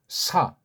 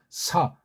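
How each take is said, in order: First: The sound strikes hard against the roof of the mouth. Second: The same.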